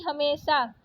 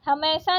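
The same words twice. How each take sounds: First: Said in the usual way. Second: हमेशा said "ha-mai-sa"; wrong vowel. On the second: Shown as a demonstration. Teacher rejecting a spelling, हमेशा with ai vowel. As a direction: open the e of हमेशा to ai. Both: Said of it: "हमेशा नहीं".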